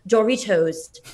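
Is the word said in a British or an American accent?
British. It is said in a fancy British accent.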